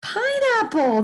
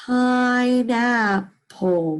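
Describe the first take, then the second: First: Pineapple, much higher and bright; teacher celebrating the answer; excited answer. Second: Pineapple drawn out very slowly; teacher blending pine and apple. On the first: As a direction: announce Pineapple with delight. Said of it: "That's right". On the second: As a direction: savour each syllable of Pineapple. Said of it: "What's the word?". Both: Shown as a demonstration.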